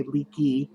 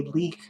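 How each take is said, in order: First: "leaky" said as two syllables, LEE-kee; others' pronunciation. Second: "leak" as one syllable, no ee ending; shortened pronunciation. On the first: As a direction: add an ee ending to "leaky". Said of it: "they will say". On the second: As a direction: cut "leak" off after the k. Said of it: "say leak when I shorten it". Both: Shown as a demonstration.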